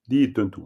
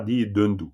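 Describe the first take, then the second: First: The middle consonants are voiceless, like t. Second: The middle consonants are voiced, like d. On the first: The speaker calls it right. "On dit di tentu" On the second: The speaker calls it wrong. "On ne dit pas di dendu"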